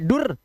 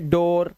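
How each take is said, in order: First: The vowel is a short u sound. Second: The vowel is an o sound. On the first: The speaker calls it wrong. "ये दोनों ही नहीं है" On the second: The speaker calls it right. "ओ की आवाज"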